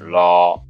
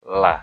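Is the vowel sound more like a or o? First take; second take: o; a. First: The vowel is rounded like o. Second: The vowel is open like a. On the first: The speaker calls it wrong. "Bukan lo, lo, bukan" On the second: The speaker calls it right. "La, la. ... biasa aja"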